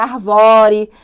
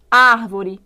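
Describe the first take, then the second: First: "arvore" stressed on VO, the middle syllable; mock mispronounced "arvore" as ar-VÓ-re; misplaced stress. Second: "Árvore" with the first syllable stressed; teacher's clear model of "Árvore", stress up front; correct stress. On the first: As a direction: wrongly punch the VO in "arvore". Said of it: "Senão vira". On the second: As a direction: hit the AR in "Árvore". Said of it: "é fundamental que esses acentos apareçam". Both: Shown as a demonstration.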